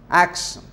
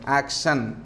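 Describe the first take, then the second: First: The stress is on the first syllable. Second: The stress is on the second syllable. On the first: The speaker calls it right. "you have to give stress on the first syllable" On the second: The speaker calls it wrong. "Many people say action like that"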